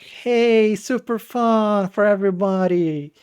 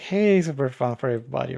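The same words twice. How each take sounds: First: It is said in an excited, lively tone. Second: It is said in a bored, flat tone.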